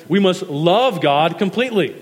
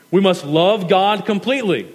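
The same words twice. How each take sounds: The two takes are said the same way.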